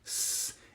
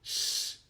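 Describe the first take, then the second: First: The S is made with the tongue tip down. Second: The S is made with the tongue tip up. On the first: "an S sound that you make with your tongue pointing towards your lower teeth" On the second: "an S sound that you make with your tongue pointing towards your upper teeth"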